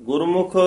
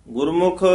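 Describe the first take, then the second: Both takes have the same delivery.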